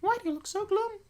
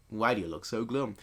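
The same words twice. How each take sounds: First: Put-on very high squeaky girl voice; wrong character voice. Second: Said in the usual way. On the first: Reader voices the line as the girl, very high-pitched. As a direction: squeak it out like a little anime girl. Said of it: "I know I read that completely wrong".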